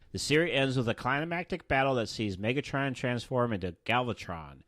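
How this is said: It is read in a flat, boring way.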